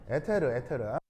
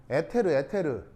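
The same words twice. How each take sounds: The two takes are said the same way.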